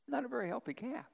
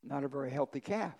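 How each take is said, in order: First: Lifted high and hushed for the joke; higher, softer repeat. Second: Said in the usual way. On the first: Acted. Pastor repeats the calf punchline to the congregation, higher and softer. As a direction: say it again, pitched up and soft.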